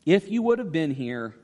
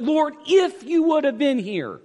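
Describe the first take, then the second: First: Said in the usual way. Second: "if" punched loud and high, the rest falling; stress on IF. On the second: Shown as a demonstration. Preacher pointing out the sisters' conditional faith, stress on "if". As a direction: lean hard on "if" to show the condition. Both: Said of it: "It was conditional, though".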